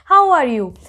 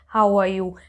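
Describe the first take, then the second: First: It is said with lively energy and varied pitch. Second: It is said flat and monotone, like a robot. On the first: The speaker calls it right. "your energy level, and you can actually sound very confident in English" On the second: The speaker calls it wrong. "It's not good to speak like a robot"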